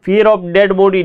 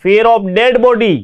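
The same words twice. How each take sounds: First: Said in the usual way. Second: "fear of dead body" said slowly, each word spaced out; slow dictation. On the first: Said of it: "teacher repeats at normal pace". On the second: Shown as a demonstration. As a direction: read it slowly for students to write down. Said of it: "teacher dictates the meaning". (छात्रों को लिखवाने के लिए धीरे-धीरे बोलिए)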